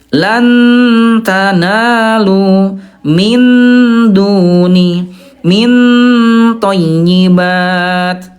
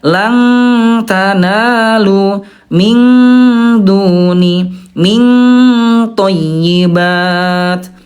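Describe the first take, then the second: First: The n in 'lan' is pronounced fully clear. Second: The n is slightly hidden with much nasal hum. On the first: "yang ke satu itu Bunda idhar ya" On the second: "tingkat kesamarannya rendah, lanta, lebih banyak dengungnya"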